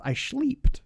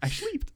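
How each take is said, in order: First: Put-on high, loud German-accented yell. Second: Put-on German accent. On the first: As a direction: blurt it in a thick German accent. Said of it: "but in a German accent". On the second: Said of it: "it was like".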